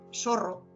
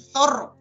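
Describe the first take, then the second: First: The z sounds like an s. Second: The z sounds like a th. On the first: This is how Portuguese speakers say it. The speaker calls it wrong. "ellos dicen zorro, porque no, no saben decir zorro" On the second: This is the proper Spanish way to say it. The speaker calls it right. "no saben decir zorro"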